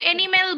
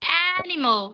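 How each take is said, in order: First: The first vowel sounds like 'e', ending 'mel'. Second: The first vowel sounds like 'a', ending 'mal'. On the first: The speaker calls it wrong. "এনিমেল বলবো না" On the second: The speaker calls it right. "It's অ্যানিমাল"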